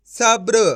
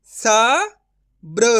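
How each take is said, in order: First: सब्र joined into one word, "sabr"; blended whole word. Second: सब्र broken as "sa... bra", with a long pause; syllable by syllable. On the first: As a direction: read सब्र in one go without a break. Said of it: "तो मिलके बन जाएगा". (सब्र को जोड़कर एक साथ बोलें) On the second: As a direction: sound out सब्र very slowly in two parts. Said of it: "direct मात्रा का उच्चारण करके पढ़ेंगे". (सब्र को "स... ब्र" तोड़कर धीरे बोलें) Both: Shown as a demonstration.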